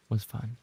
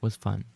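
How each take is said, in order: Both takes have the same delivery.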